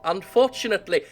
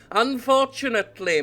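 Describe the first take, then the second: First: Said in the usual way. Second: Sinister. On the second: Shown as a demonstration. Reading the scheming heir's line, now sinister. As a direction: make unfortunately sound sinister. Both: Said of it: "needs a bit more of a sinister air".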